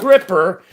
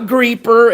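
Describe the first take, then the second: First: The first vowel sounds like short 'ih'. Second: The first vowel sounds like 'ee'. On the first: "it's not Gripper" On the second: "It's not Greeper"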